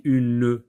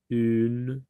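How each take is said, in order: First: "une" with an extra final "-e", as u-ne; sounded silent E. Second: Said in the usual way. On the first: Shown as a demonstration. Teacher showing what is not said, sounded final E. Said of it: "On n'a pas dit une". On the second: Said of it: "un autre E qu'on n'entend pas".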